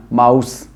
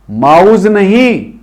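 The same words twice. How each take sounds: First: माउस lower and softer, ending on s; right mouse with s. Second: माउस said slowly with a z at the end; wrong mouse with z. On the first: Teacher softly models the correct माउस. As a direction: finish माउस on a clean s. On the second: Teacher slowly imitating the wrong माउस. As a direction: drag out माउस, ending on z. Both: Shown as a demonstration.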